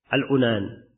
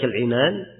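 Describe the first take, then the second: First: The first vowel of the word is 'u'. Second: The first vowel of the word is 'i'. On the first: "bisa dhammah" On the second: "Bisa dikasroh"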